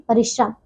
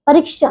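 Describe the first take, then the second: First: Said in the usual way. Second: परिश्रम with a long "ee", "pareeshram"; mispronounced परिश्रम. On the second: Shown as a demonstration. Teacher shows pupils the error, long "ree" in परिश्रम. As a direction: stretch the second vowel of परिश्रम. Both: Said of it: "नहीं".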